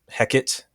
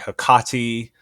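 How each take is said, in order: First: It is pronounced the Shakespearean English way. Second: It is pronounced the ancient Greek way. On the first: The speaker calls it wrong. "which is the way that Shakespeare pronounced her name" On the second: The speaker calls it right. "If I were an ancient Greek person, the correct way to pronounce her name"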